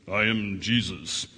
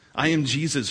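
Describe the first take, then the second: First: It is said in a deeper voice. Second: It is said in a normal voice.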